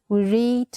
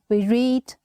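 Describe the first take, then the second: The two takes are said the same way.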